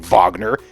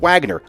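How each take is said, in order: First: The name is said the German way. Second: The name is said the American way. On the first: "I'm not going to say Wagner" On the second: "I'm American. It's Wagner"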